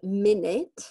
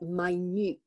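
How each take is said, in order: First: It is pronounced as the unit of time. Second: It is pronounced as the word meaning tiny. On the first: It refers to a unit of time. "So one minute" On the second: It means very small or precise. "if we mean very precise, we say minute"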